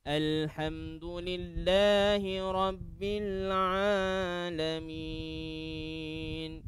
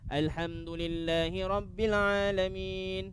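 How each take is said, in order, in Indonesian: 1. Vokal panjang dibaca dengan panjang yang sedang. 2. Vokal panjang dibaca pendek dan cepat. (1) "dua harakat dia cara tadwir, cara bacaan dalam solat" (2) "cara hadar ... dua harakat tu jadi pendek"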